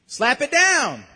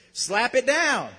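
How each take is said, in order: First: Loud, higher preacher's exhortation; forceful command. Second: Said in the usual way. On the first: Real, not acted. Preacher telling congregation to reject the lie, loud and forceful. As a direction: punch it out as a rallying order.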